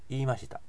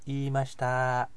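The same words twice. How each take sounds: First: It has Kansai-style pitch movement. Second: It has flat, standard Japanese pitch. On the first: "言いましたじゃなくて" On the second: "フラットにこういう"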